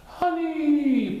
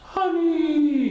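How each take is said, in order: First: Loud, high booming honey; loud drawn-out high call. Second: High, louder booming honey; loud drawn high honey; loud announcement. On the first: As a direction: boom to remind them. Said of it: "boomed Frankenpoo". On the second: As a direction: savour the word loudly. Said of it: "he announced again". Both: Acted.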